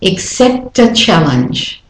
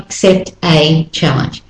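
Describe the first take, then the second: First: "Accept a challenge," the T flowing into a weak schwa; smooth it into one word; linked natural version. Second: "accept a challenge" with a full "a" sound, choppy; wrong stressed version. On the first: Teacher contrasting right and wrong linking. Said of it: "not accept a challenge". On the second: Teacher showing the version not to use. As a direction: stress the a as a separate vowel. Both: Shown as a demonstration.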